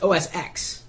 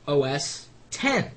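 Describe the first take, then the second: First: The last part is said as the letter X. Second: The last part is said as the number ten. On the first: The speaker calls it wrong. "many people say it's O S X. And it, it isn't" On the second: The speaker calls it right. "the pronunciation of O S ten"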